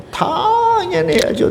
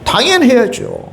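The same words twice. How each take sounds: First: Much higher, slow 당연히 with a falling tone; emphatic answer. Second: Higher, 당연히 stressed with a falling tone; emphatic answer. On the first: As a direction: drag out 당연히, high and slow. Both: Acted. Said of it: "해야 돼요, 안 해야 돼요?".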